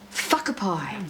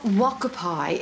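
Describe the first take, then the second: First: The word begins with an F-like sound. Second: The word begins with a plain W sound. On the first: The speaker calls it right. "it's uh, whakapai, right?" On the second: The speaker calls it wrong. "So it's not wakapai"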